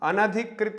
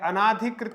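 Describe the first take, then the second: First: The second syllable has a short 'a' vowel. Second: The second syllable has a long 'aa' vowel. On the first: The speaker calls it right. "अनधिकृत होता है" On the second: The speaker calls it wrong. "अनाधिकृत नहीं होता है मित्रों"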